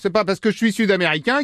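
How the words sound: It is spoken with a Parisian French accent. The speaker calls it wrong. "Sud-américain, avec un accent parisien"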